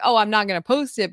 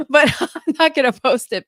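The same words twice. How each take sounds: First: Said in the usual way. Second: Higher, louder, laughing through it; the promise nobody believes, giggling. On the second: Retold or imitated. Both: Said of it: "I mean, I might".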